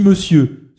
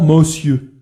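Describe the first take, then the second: First: Monsieur is said in a mannered, affected way. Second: Monsieur is said respectfully yet with condescension. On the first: The speaker is putting on airs. "ce qui est affecté" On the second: The speaker shows regard mixed with protection. "qui est entre le respect et la protection"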